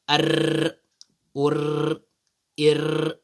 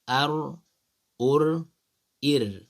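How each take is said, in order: First: The R is rolled with several repeated taps. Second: The R is a single light tap. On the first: The speaker calls it wrong. "repeating letter or the sound R. You cannot say" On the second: The speaker calls it right. "It's just slight"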